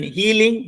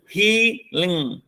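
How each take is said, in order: First: Said in the usual way. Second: "healing" as "hea", pause, "ling"; split into syllables. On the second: Shown as a demonstration. Teacher counting two syllables for students, "healing" split hea-ling. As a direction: break "healing" into two drawn-out parts. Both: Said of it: "we have two syllable".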